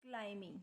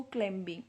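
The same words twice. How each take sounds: First: क्लाइंबिंग said klaiming, b silent; क्लाइंबिंग with the b dropped after the m. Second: क्लाइंबिंग said klembing, the b sounded out; क्लाइंबिंग with a pronounced b, the way children misread it; wrong pronunciation. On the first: Teacher gives the correct क्लाइंबिंग to the class, b silent. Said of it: "M के बाद बी silent होता है". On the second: Teacher shows children's mistake, क्लाइंबिंग with the b sounded. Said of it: "अक्सर बच्चे पढ़ लेते हैं इसको". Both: Shown as a demonstration.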